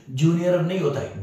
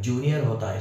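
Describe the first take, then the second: First: "नहीं" punched, the whole line higher and louder; stress on नहीं. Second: Said in the usual way. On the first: Shown as a demonstration. Teacher stressing the wrong form for students, higher and louder. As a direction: hit "नहीं" hard to mark the wrong form. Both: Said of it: "सही है".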